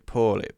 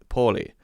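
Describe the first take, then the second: First: It is said with an American accent. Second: It is said with a non-American accent. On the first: "Americans would go er" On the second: "instead of poorly"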